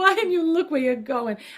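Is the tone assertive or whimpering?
whimpering. It is said in a weak, whimpering tone.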